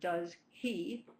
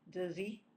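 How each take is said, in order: First: The words are said separately with a full h. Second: The words are linked with the h sound dropped. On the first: "Instead of does he" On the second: "it becomes does he"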